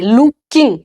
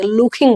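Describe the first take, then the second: First: "लुकिंग" as loo-king, plain k; no puff on the k of "लुकिंग"; unaspirated looking. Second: "लुकिंग" as luk-khing, puffed k; aspirated American looking. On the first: Teacher showing what Americans don't say, plain k. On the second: Teacher showing American looking, aspirated k. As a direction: breathe out on the k of "लुकिंग". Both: Shown as a demonstration. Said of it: "किंग नहीं बोलते".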